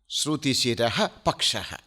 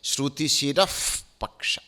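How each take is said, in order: First: An h sound comes before 'paksha'. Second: An f sound comes before 'paksha'.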